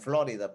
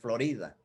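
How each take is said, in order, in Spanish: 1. La palabra se pronuncia de forma parecida al inglés. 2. La palabra se pronuncia a la manera española. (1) "acá le dicen Florida" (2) "la pronunciación correcta en español es Florida"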